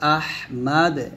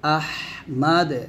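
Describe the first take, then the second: Both takes have the same delivery.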